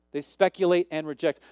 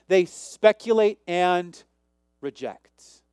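First: Said in the usual way. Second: Slow, each word weighed out; slow deliberate read. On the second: Shown as a demonstration. Preacher slowing down to show the congregation the phrase, slow and deliberate. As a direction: draw it out slowly so they catch every word.

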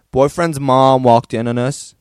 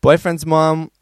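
First: A rough attempt at an American accent, louder. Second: Said in the usual way. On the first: Shown as a demonstration. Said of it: "this one's American". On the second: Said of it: "sorry, this one's American".

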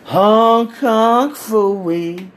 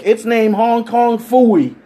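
First: Put-on slow, drawn-out drunken slur of Hong Kong Phooey. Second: Said in the usual way. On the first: Drunk friend slurring the dildo's name, very slow. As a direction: stretch each word like a drunk man. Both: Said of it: "drunk as fuck".

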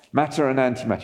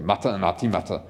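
First: Said in the usual way. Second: Low-pitched Scottish Scotty voice; Scottish engineer impression, pitched down; Scottish accent. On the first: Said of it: "You have to say that in a Scottish voice". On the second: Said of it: "say that in a Scottish voice".

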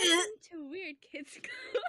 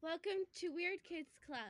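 First: High, slow, laughing bimbo greeting; ditzy bimbo voice breaking into laughter. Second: High airy ditzy greeting; ditzy bimbo welcome. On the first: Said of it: "Stop. I don't like that". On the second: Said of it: "like, bimbo voice?". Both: Pretend.

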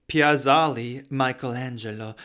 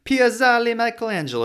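First: Said in the usual way. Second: Piazzale Michelangelo sung high in Italian accent; hammed-up Italian, Piazzale Michelangelo with a big rise. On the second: Shown as a demonstration. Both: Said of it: "makes me wanna talk in an Italian accent".

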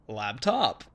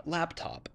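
First: Laptop said louder with a falling tune; changed intonation. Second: Said in the usual way. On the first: Shown as a demonstration. Retrying a word for a Thai listener, new tune. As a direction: repeat Laptop with different intonation. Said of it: "and then I'll say". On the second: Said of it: "I'll say".

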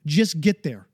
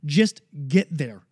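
First: Said in the usual way. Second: "just get there" drawn out slowly, each word weighted; slow it right down to drive it home; slow and emphatic. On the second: Real, not acted. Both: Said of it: "I don't care how you get there".

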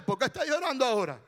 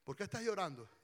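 First: Fast, fed-up question, full voice; mock impatient scolding. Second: Soft, caring question to a crying wife; gentle concern. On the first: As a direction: demand it briskly, as if annoyed by the crying. Acts impatient husband, counterexample. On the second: Acted. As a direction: ask quietly, offering comfort. Caring husband consoles crying pastora.

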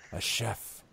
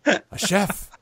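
First: Very soft, wistful aside; hushed, dreamy undertone; musing repeat. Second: High-pitched, delighted declaration; eager high goblin boss; emphatic repeat. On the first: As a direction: say it softly, savoring the idea. Boss muses over his demand. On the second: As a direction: announce the idea, pitched right up. Boss insists on his demand. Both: Acted.

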